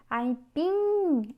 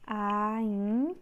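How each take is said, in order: First: "Aipim" with a long, swelling PIM; stretched stressed syllable. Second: "Aipim" split into AI, long pause, PIM; syllable by syllable. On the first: Teacher showing the last syllable is tonic, stretched stress. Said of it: "é a última". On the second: Teacher separating the next word, syllable by syllable. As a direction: hold AI, pause, then say PIM. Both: Shown as a demonstration.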